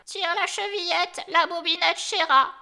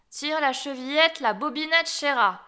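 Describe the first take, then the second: First: High, loud grandmother's call; raised, high-pitched granny shout; crying out. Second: Wolf posing as granny, calling a little sweetly; raised but toned-down wolf voice; wolf softening his voice. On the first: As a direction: call out from the sickbed to the door. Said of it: "lui cria". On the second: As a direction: call out, slightly softened, as fake grandmother. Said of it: "lui cria en adoucissant un peu sa voix". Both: A narrator's reading.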